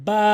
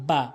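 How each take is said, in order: First: Arabic বা, held with a fronted vowel; correct বা. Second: বা with an everyday open "aa"; mispronounced বা. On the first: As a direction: press both lips together, then lengthen বা. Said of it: "সঠিক উচ্চারণ হচ্ছে". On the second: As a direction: say বা short, as in Bengali. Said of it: "ভুল উচ্চারণ". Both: Shown as a demonstration.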